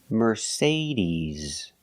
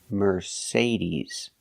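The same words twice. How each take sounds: The two takes are said the same way.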